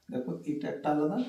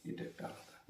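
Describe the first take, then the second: First: Said in the usual way. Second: এটা একটা আলাদা breathed as a whisper. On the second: Shown as a demonstration. Teacher whispers the point back to pupils. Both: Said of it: "হচ্ছে দুটো আলাদা হয়ে গেছে".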